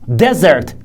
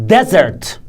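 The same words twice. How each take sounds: First: The stress is on the first syllable. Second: The stress is on the first syllable.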